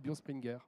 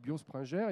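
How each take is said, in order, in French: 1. Le nom se dit comme le disent les Alsaciens. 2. Le nom se dit comme le disent les Parisiens. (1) "si on est en Alsace, on dit Biospringer" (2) "si on est en région parisienne, on dit Biospringer"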